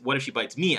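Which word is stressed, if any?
me. The word me carries strong stress. The speaker calls it right. "you see how the emphasis on me is"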